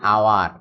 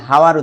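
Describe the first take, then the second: First: The word begins with a vowel, no h sound. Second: The word begins with an audible h sound. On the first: The speaker calls it right. "এইচ এর উচ্চারণ হয় না" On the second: The speaker calls it wrong. "এটা হাওয়ার উচ্চারণ না"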